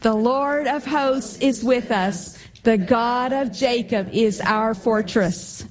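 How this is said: It is said forcefully, with strong conviction.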